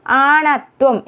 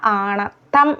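First: ആണത്വം with a "thw" ending; wrong pronunciation. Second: ആണത്തം slowly with a doubled t; correct pronunciation. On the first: Teacher showing the form to avoid, "thwam" in ആണത്വം. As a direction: say ആണത്വം as "aanathwam". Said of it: "എന്നല്ല". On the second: Teacher correcting learners, slow doubled t in ആണത്തം. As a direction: say ആണത്തം as "aanath-tham". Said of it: "എന്നാണ്". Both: Shown as a demonstration.

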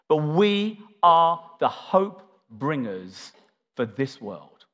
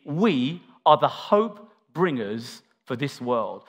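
First: Slow, with "are" drawn out and hit hard; stressing are. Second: Slow, "are" dwelt on and pressed; stressing are again. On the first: Preacher telling the church its role, slow stress on "are". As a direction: lean on "are" and take it slowly. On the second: Preacher repeating the church's calling, slow stress on "are". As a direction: press "are" hard, slowly, for every listener. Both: Shown as a demonstration. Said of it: "I'll say it again".

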